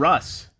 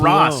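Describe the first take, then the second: First: The name is said with the vowel of bus. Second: The name is said with the vowel of boss. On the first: The speaker calls it right. "It's Russ" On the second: The speaker calls it wrong. "it's not Ross"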